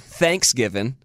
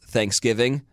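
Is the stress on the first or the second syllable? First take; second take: first; second. First: The stress falls on the first syllable. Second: The stress falls on the second syllable. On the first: This is how Southerners say it. "And they say Thanksgiving instead of" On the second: This is how Californians say it. "the California version is Thanksgiving"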